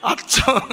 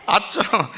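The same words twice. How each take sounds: First: Pitched way up, punched out; emphatic exclamation. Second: The word said through a laugh; laughing repeat. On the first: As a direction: throw the word up high in mock amazement. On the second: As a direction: chuckle as you say it again. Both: Acted. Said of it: "మీరు కూడా బాగా connect అయ్యారు".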